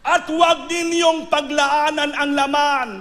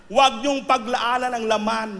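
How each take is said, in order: First: Slow, higher, louder stress on "huwag"; preaching warning. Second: Said in the usual way. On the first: Acted. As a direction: thunder the warning from the pulpit. (malakas at mabagal na babala)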